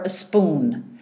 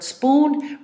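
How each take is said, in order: First: A short vowel comes before the s. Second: The word starts with s and p together. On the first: The speaker calls it wrong. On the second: The speaker calls it right.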